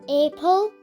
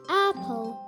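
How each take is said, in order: First: The first vowel is not a short A. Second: The first vowel is a short A. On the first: The speaker calls it wrong. "Is it apple? No" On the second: The speaker calls it right. "short A sound"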